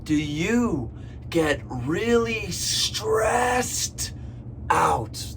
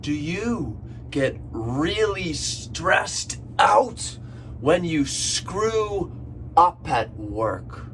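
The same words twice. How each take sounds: First: Teacher punching "stressed" in the repeated question. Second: Slow question. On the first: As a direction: hit the word "stressed" hard and drawn out. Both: Shown as a demonstration. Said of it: "One more time".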